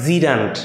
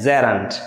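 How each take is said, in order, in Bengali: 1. প্রথম স্বরধ্বনিটি 'ee'-র মতো শোনায়। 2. প্রথম স্বরধ্বনিটি 'eh'-র মতো শোনায়। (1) "নট জিরান্ট" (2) "উচ্চারণ করবা জেরান্ট"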